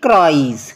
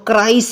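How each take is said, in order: First: The word ends with a z sound. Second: The word ends with an s sound. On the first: The speaker calls it right. "अब क्राइज, क्या बोलेंगे?" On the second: The speaker calls it wrong. "इसको क्राइस नहीं बोलेंगे"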